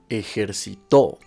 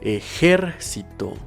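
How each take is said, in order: First: The stress is on the final syllable. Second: The stress is on the third-to-last syllable. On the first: It is a past-tense verb in the third person. "si se encuentra en la última sílaba, sonará de la siguiente forma" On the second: It is a noun. "si se encuentra en la antepenúltima sílaba, sonará de la siguiente forma"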